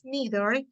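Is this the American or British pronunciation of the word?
American. It is said with an American pronunciation. "In America, we pronounce neither"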